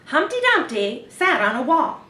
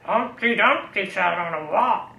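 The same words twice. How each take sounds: First: It is said like a news reporter. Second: It is said in a growly pirate voice.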